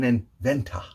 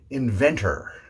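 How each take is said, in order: First: The final R is weak or dropped. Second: The final R is a strong er sound. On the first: The speaker calls it wrong. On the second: The speaker calls it right.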